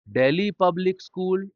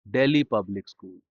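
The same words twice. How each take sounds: First: Delhi public school pitched high, left hanging; raised tune. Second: Delhi public school pitched low, falling; falling tune. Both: Shown as a demonstration. Phrase said twice, tune contrasted.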